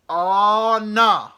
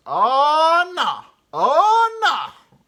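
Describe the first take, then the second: First: Loud high yell of oh no; big driver shouting in dismay; screaming bus driver. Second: Very high loud wail of oh no; driver yelling again. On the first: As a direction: bellow it at the whole bus. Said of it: "he's, like, screaming at it". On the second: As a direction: howl it in disbelief. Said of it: "And he goes". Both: Retold or imitated.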